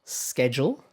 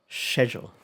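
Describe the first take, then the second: First: Schedule opening with "sk", rising as a contrast; American pronunciation. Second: Schedule opening with "sh", falling to close; British pronunciation. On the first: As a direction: say schedule as "SKED-jool". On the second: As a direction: say schedule as "SHED-yool". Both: Shown as a demonstration. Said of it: "Quite different, right?".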